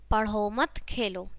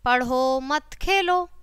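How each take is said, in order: First: There is no pause inside the phrase. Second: There is a pause after mat. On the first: The meaning is unclear. "तीसरे वाक्य में चिन्ह न होने से कोई अर्थ स्पष्ट नहीं होता" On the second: Do not study, play. "पढ़ो मत फिर हमने कोमा लगाया, खेलो"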